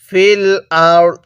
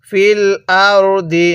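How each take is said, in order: First: The phrase ends on the consonant d. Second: The phrase ends on a final i vowel. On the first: The reader stops at this point. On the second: The reading continues without stopping.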